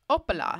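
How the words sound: The name is said with a French accent.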